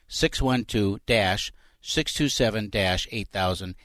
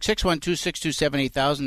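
First: The number is said more slowly. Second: The number is said at normal speed.

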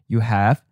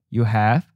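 The two takes are said the same way.

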